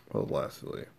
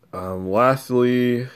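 First: Soft whispered aside. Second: A slow, drawn-out lastly. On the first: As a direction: whisper it under your breath. Repeats the word under breath. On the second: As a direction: stretch out the word slowly. Drawn-out lead into final point. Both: Acted.

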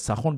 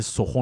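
First: سخن said as "sakhon"; old Persian "sa-KHON" for سخن; old pronunciation. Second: سخن said as "sokhon"; old Persian "so-KHON" for سخن; old pronunciation. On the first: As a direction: say سخن with a first, then o. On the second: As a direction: say سخن with o in both syllables. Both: Shown as a demonstration. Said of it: "سر اینکه سخن بوده درستش".

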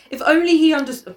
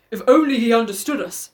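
First: Said in the usual way. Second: Lightly put-on father's voice. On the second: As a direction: voice the wistful father, playfully. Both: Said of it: "so I do a father voice".

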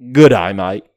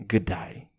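First: Louder, hammed-up Good day, mate; Good day, mate punched loud; loud mock Aussie farewell. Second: Said in the usual way. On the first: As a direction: bellow it like a stage Australian.

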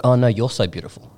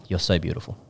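First: "you're" leaned on, turning the compliment back; mock returned compliment. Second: Low, soft imitated gushing comment; understated retelling of a girl's compliment; mock compliment. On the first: Girl returning her friend's compliment, mock insistence on "you're". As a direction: put the weight on "you're" after a drawn "Oh no". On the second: Imitating a girl commenting on a friend's photo, low and soft. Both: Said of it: "the girls have commented and they've been like".

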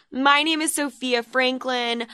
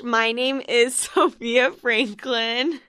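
First: Said in the usual way. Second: Slowed intro broken by a giggle; can't keep a straight face; laughing mid-intro. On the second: Real, not acted. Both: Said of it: "I really need to stop doing that".

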